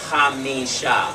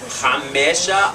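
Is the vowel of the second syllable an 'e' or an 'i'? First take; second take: i; e. First: The second syllable has an 'i' vowel. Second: The second syllable has an 'e' vowel. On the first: The speaker calls it right. "There's an I there" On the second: The speaker calls it wrong. "Is it Chamesha or Chamisha?"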